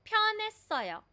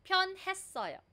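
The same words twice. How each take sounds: First: The h sound in the middle is silent. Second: The h sound in the middle is pronounced.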